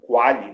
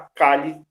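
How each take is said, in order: First: The word begins with a kw sound. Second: The word begins with a plain k sound. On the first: The speaker calls it wrong. "o professor utiliza Quali para ficar mais fácil de pronunciar" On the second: The speaker calls it right. "O certo seria Cali"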